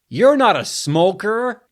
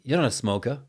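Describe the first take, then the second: First: It is said in an American accent. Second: It is said in a New Zealand accent. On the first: "for some reason, I said it like" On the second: "in the Kiwi accent is smoker, right?"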